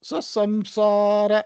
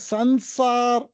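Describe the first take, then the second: First: The nasal before 's' sounds like 'm'. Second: The nasal before 's' sounds like 'n'. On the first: The speaker calls it right. "அனுஸ்வாராவை மகாரமா தான் சொல்லணும்" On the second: The speaker calls it wrong. "ஹிந்தியில சன்சார் அப்படி சொல்ற நகாரா"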